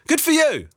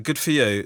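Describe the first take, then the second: First: It sounds sincere. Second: It sounds sarcastic.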